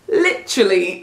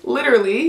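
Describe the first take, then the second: First: It is said in a British accent. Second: It is said in an American accent. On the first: "the Brits say literally" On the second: "Americans, we say literally"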